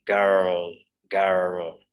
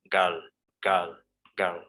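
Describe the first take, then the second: First: Put-on "girl" with a clear rolled American R. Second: Put-on "girl" with the R completely silent; British girl. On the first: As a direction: say "girl" pronouncing the R. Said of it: "more like an American speaker". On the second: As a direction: say "girl" as a plain schwa. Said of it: "We say girl". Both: Shown as a demonstration.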